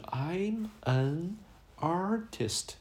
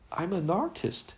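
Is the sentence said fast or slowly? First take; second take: slowly; fast. First: It is said slowly, words kept apart. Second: It is said fast, words linked together. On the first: "说慢了就是" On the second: "说快了就是"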